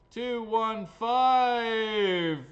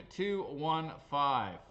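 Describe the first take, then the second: First: Loud, high, very slow number call; drawn-out announcer shout. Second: Slow, measured call of the number; slow number reading. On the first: Acted. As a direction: bellow it, stretching the last word. Winning number called out for show. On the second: Real, not acted. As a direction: read the digits out slowly. First reading of winning number.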